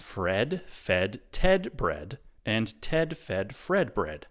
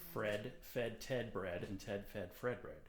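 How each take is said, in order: First: It is said slowly and carefully. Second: It is said at normal, quick speed.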